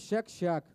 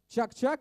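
First: Both syllables begin with a soft 'shch' sound. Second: Both syllables begin with a hard 'ch' sound. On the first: "а мы его называем «щак-щак»" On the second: "называете наше лакомство «чак-чак»"

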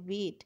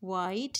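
First: The vowel sounds like 'ay' in 'day'. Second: The vowel sounds like 'eye'. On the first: The speaker calls it right. "यहाँ वेट है" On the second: The speaker calls it wrong. "वाइट नहीं है"

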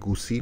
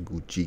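First: The middle consonant is an 's' sound. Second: The middle consonant is a 'ch' sound. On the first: The speaker calls it wrong. "उसे गुसी नहीं कहते" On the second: The speaker calls it right. "उसे गुची कहते हैं"

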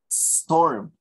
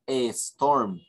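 First: The word starts directly with the s sound. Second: An extra e vowel comes before the s. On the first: The speaker calls it right. "Only snow, storm" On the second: The speaker calls it wrong. "Don't say a storm"

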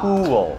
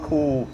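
First: The word is drawn out into two syllables. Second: The word is said as one short syllable. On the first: The speaker calls it right. "เราต้องออกเสียงอย่างนี้นะ ... สองพยางค์ครับนี่" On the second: The speaker calls it wrong. "ไม่ใช่คูลนะครับคูลถ้าเราออกเสียงว่าคูลเนี่ยฝรั่งจะฟังเป็นคำว่า coup"

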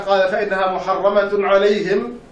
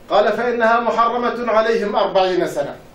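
First: The reciter pauses right after the word alayhim. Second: The reciter pauses only after the word sana. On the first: The land is forbidden to them forever; forty years is the wandering. "إذا وقفنا عليها" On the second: The land is forbidden to them for forty years only. "إذا قرأناها بما يجوز أيضا"

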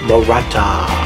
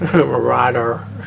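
First: The last syllable starts with a t sound. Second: The last syllable starts with a d sound. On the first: The speaker calls it wrong. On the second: The speaker calls it right.

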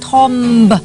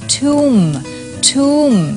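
First: A short 'o' vowel with a final b sound. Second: An 'oo' vowel with a silent final b. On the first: The speaker calls it wrong. "ทอมบไม่ใช่เลย" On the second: The speaker calls it right. "คำนี้อ่านว่าทุ่ม"

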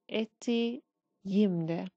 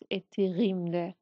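First: The middle consonant sounds like a y. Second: The middle consonant sounds like a hard g. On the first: The speaker calls it right. "It sounds like y, like y for yellow" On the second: The speaker calls it wrong. "So it is not ettiğimde"

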